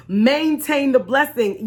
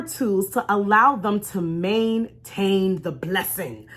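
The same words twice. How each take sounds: First: "Maintain the blessing" slowed and weighted; emphatic repeat. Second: Said in the usual way. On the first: Shown as a demonstration. Vlogger driving her point home to viewers, slow and emphatic. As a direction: lean hard on "Maintain the blessing".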